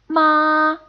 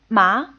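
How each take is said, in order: First: The pitch stays high and level throughout. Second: The pitch rises steadily from low to high. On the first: "you say the sound in a high, almost sing-song like style, like this" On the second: "the second tone slowly rises and gets stronger"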